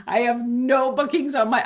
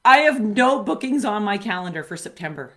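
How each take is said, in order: First: Laughing nervously through the words. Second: Said in the usual way. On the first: Real, not acted. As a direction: giggle anxiously while admitting it. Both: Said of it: "I'm laughing 'cause it's a nervous laugh".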